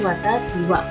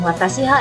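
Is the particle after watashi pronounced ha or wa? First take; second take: wa; ha. First: The particle is pronounced with a w sound. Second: The particle is pronounced with an h sound. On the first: The speaker calls it right. "tapi watashi wa" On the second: The speaker calls it wrong. "bukan watashi ha ya"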